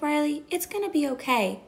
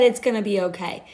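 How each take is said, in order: First: Lightly voiced toddler. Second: Said in the usual way. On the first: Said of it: "she was two". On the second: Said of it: "a two-year-old literally just said".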